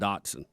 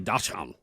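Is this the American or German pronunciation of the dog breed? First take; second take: American; German. First: It is said the anglicized American way. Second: It is said the original German way. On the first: "We're the ones that said Dotson" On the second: "They say Dachshund"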